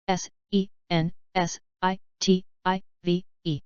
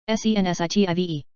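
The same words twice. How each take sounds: First: Slow, letter by letter; unhurried classroom spelling. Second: Quick letter run; brisk recap spelling; fast spelling. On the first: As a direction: spell each letter out slowly. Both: Shown as a demonstration. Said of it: "spelling drill, slow then fast".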